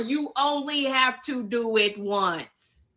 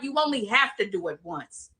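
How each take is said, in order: First: It is said slowly and deliberately. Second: It is said at normal speed.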